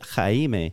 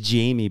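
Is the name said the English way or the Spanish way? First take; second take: Spanish way; English way. First: The name is said with a Spanish pronunciation. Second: The name is said like the English Jamie. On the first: "that's how he pronounces it" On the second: "It's just Jamie"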